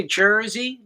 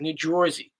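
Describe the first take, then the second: First: Said in the usual way. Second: Jersey with a rounded "Joisey/Jorsey" vowel, low; local "Jersey". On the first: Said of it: "we say Jersey". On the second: Shown as a demonstration. Husband showing how locals talk, Jersey as "Jorzy". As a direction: say Jersey as "JWOR-zee". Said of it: "It's like New Jersey".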